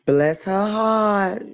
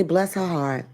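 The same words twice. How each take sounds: First: "Bless her heart" drawn out very slowly, each word lingered on; slow sweet dismissal. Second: Said in the usual way. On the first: Shown as a demonstration. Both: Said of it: "like I do".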